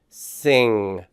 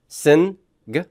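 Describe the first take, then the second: First: The ending is one single ng nasal sound. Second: The n and g are said as separate sounds. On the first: The speaker calls it right. "you're really pronouncing one sound here" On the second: The speaker calls it wrong. "Do you pronounce the word sin and then add a G at the end?"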